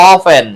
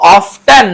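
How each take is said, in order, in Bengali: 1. মাঝখানে t ধ্বনিটি নীরব থাকে। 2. মাঝখানে t ধ্বনিটি উচ্চারিত হয়। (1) "এই অফেন উচ্চারণে টি উজ্জ থাকে" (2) "এখানে টিটা আছে"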